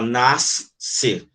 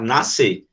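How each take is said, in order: First: The s and c are sounded separately. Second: The s and c make one s sound. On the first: The speaker calls it wrong. "você não fala nascer" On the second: The speaker calls it right. "você fala nascer"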